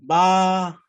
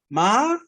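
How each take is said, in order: First: The pitch stays level in the middle. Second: The pitch rises from low to high. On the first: "중간음이에요" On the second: "이게 올라가죠"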